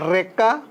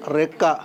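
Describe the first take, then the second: First: రెక్క with a strong trilled r, rising; old hard R. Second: Said in the usual way. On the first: Shown as a demonstration. Teacher showing the old letter, రెక్క with hard r. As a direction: roll the r hard opening రెక్క. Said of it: "తేడా ఇది". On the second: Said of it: "మామూలుగా".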